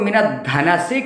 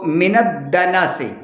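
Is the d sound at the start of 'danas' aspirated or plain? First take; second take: aspirated; plain. First: The d at the word's start is aspirated. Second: The d at the word's start is plain. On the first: The speaker calls it wrong. "इसको मिनत धना से कह देते हैं" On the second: The speaker calls it right. "दाल नून सीन"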